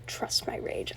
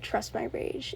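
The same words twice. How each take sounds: First: Hushed whisper of the line; whispered quote. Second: Said in the usual way. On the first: Shown as a demonstration. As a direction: breathe Trust my rage almost voiceless. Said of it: "I love that quote so much". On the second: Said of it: "and he said".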